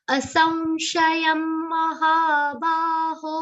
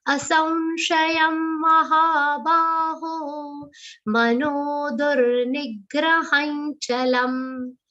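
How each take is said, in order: First: Higher, slow Sanskrit chant; chanted, intone it slowly like a teacher; chanted verse. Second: Asamshayam with the anuswar as a nasal va. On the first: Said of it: "anuswar on sa should be pronounced like a nasal va". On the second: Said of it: "like a nasal va". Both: Shown as a demonstration.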